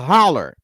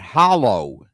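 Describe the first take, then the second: First: The word ends with an 'er' sound. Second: The word ends with an 'oh' sound. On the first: This is how the locals there say it. "but they call it the holler" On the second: This is the speaker's own way of saying it. "We pronounce that hollow"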